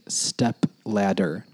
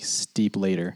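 First: Each part of the word is said clearly. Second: The vowels change so it sounds like steep later. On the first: The speaker calls it right. "enunciation is like saying step ladder" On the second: The speaker calls it wrong. "making sure I don't say it as in like steep later. I'm not pronouncing it right"

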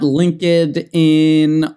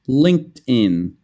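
First: The d stays separate from the following 'in'. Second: The d joins the following 'in', like 'din'. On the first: The speaker calls it wrong. "It's not LinkedIn or something like that" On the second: The speaker calls it right. "it kind of sounds like din, so move the D"

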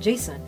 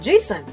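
First: The name is called at normal volume. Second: The name is called with a raised voice.

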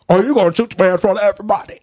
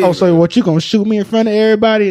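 First: It is said in an attempted English accent. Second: It is said in an American accent.

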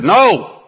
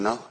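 First: It is said loudly and sharply. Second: It is said softly and gently.

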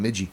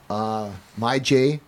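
First: The name sounds like one word, 'Midgey'. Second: The name sounds like two words, 'My Jay'. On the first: The speaker calls it wrong. "I used to call him Midgey" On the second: The speaker calls it right. "I finally said it right"

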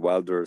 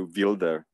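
First: The name is pronounced the English way. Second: The name is pronounced the Czech way. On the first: "not the English Wilder" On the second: "here in Czechoslovakia we just say Wilder"

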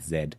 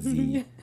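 First: It is said the British way, zed. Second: It is said the American way, zee.

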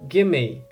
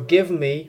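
First: The two words are run together as gimme. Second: The two words are said fully and separately. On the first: "becomes gimme" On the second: "give me becomes gimme"

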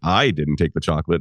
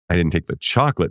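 First: The word take is stressed. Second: The word chocolate is stressed.

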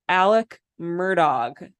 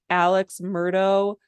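First: The surname ends in a final consonant, like 'Murdock'. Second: The surname ends in an open vowel, like 'Murdo'. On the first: This is how the person's name is actually said. The speaker calls it right. "because his name is Alec Murdog" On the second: The person saying it has not researched the case properly. The speaker calls it wrong. "if you're listening to a podcast and they say Alex Murdo, you know that they aren't investigating it correctly"

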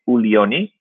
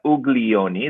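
First: The name is said with an Italian accent. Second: The name is said with an English accent.

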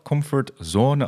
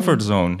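First: Comfort sounds English and zone sounds French. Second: Both comfort and zone sound English. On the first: The speaker calls it wrong. "Want dan is het comfort in het Engels en zone weer in het Frans" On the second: The speaker calls it right. "gewoon één Engels of Amerikaans woord"

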